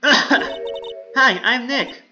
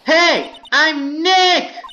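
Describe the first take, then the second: First: It is said quietly. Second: It is said loudly.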